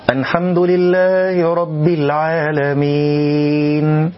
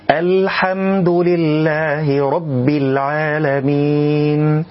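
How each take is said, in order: First: The l sounds nasal, close to an n. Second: The l sounds plain, with no nasality. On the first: The speaker calls it wrong. "إدخال صوت الغنة على حرف اللام" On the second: The speaker calls it right. "اللام لا علاقة لها بالغنة"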